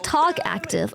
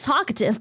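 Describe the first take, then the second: First: It sounds like two words, talk and active. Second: It sounds like one word, talkative. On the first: "I just say talk active" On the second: "It's the word's talkative"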